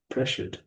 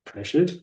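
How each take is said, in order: First: Pressured said soft with a falling, caring tune; quiet sympathetic fall on Pressured; concern tone. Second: Pressured swung up high like a question; questioning upward tune on Pressured; curious rising tone. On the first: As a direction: drop gently down on Pressured, concerned. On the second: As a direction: lift Pressured up, puzzled and curious. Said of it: "Pressured. rise". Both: Shown as a demonstration.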